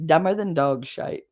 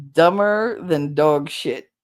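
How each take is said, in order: First: "shite" said with a long "eye" sound, as in "bite"; dog shite. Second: "shit" said as the plain American word, slowly and drawn out; first take with the ordinary "shit", dragged slowly; dog shit. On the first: Correcting the word for the Aussie viewer, "shite" rhymes with kite. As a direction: swap in the British "shite", rhyming with kite. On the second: Reading out the super chat line before correcting it, slow and plain. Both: Shown as a demonstration. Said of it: "or shite".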